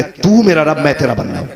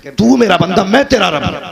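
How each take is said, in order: First: Said in the usual way. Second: Overjoyed blurting. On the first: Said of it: "कहना यह था कि". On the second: Retold or imitated. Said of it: "मगर खुशी में ऐसा भूल गया वो". (ख़ुशी में बौखलाकर "तू मेरा बंदा" ज़ोर से कहना)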